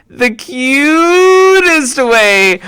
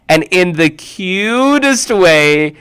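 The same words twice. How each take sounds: First: "the cutest way" very slow, high and loud; gushing stress. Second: Said in the usual way. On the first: Shown as a demonstration. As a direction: stretch "cutest" out, cooing.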